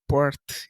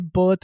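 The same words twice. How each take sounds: First: The R is not rolled. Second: The R is rolled in an Indian accent. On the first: This is how it is said outside India. "not birth" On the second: This is how it is said in India. "We say birth in India"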